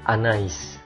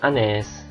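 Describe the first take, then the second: First: The 'a' and 'i' are voiced as separate vowels. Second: The 'ai' merges into a single 'e' vowel. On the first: The speaker calls it right. "benar-benar dia dibaca I" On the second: The speaker calls it wrong. "bukan Anes"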